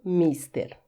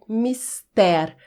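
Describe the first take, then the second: First: "mister" as MIS-ter, falling after the first syllable; wrong first-syllable stress. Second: "mister" as mis-TÉR, open e; correct final stress. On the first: Teacher ruling out the wrong form, stress on MIS. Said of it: "não mister". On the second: Teacher summing up the correct form, stress on TÉR. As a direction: land the stress on the last syllable of "mister". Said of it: "A pronúncia correta é mister". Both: Shown as a demonstration.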